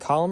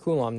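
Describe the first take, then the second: First: It is said like the word column. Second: It is said with a long oo sound. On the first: The speaker calls it wrong. "is it column or coulomb?" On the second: The speaker calls it right. "it's coulomb"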